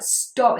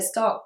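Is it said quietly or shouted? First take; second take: shouted; quietly. First: It is shouted loudly. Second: It is said at a normal, quieter volume.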